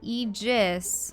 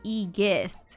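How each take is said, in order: First: The g is soft, sounding like j. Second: The g is hard, as in go. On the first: "that's a J" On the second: "otherwise it'd be Aegis. That doesn't sound right"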